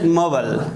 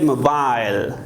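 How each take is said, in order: First: It is said in an American accent. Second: It is said in a British accent. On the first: "in American English, we pronounce it" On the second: "But in British English, we pronounce it"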